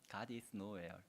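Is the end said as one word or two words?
one word. The ending is run together as one word. God is not anywhere. "하나님 어디에도 없다라고 읽을 수도 있습니다"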